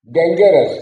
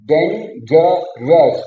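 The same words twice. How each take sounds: First: Said in the usual way. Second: dangerous stretched very slowly, three separate parts; slow syllable split. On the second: Shown as a demonstration. Teacher breaking dangerous into three parts for students. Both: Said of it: "वो तीन अलग अलग part में है".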